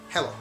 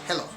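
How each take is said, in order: The two takes are said the same way.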